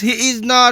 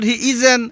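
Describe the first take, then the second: First: 'Is not' is said as two full words. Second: 'Is not' is contracted into one word.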